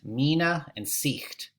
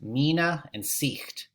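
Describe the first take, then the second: First: The vowels are 'ee' sounds. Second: The vowels are 'ee' sounds.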